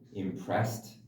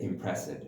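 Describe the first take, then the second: First: The word ends in a plain t sound. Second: The word ends in an extra 'id' syllable. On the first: The speaker calls it right. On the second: The speaker calls it wrong.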